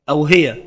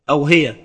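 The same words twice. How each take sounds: The two takes are said the same way.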